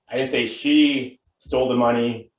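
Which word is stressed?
she. The word 'she' carries the main stress. Someone else took it. "Could mean she didn't steal it, but somebody else did"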